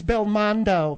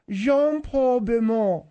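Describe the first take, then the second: First: "Belmondo" with every consonant sounded, bel-MON-do; American pronunciation. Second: "Belmondo" the French way, nasal vowels and swallowed consonants; French pronunciation. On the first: Co-host showing how Americans say it, American pronunciation. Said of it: "That's the way Americans say it". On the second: Co-host showing off the star's name, French pronunciation. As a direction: say "Jean-Paul Belmondo" as the French do, ending on an open "oh". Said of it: "The French pronunciation". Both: Shown as a demonstration.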